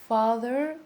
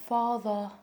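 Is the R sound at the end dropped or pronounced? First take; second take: pronounced; dropped. First: The final R sound is clearly pronounced. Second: The final R sound is dropped into a schwa. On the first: "In the American accent, they actually uh, articulate the clear R sound" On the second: "To talk about the British accent, they just say"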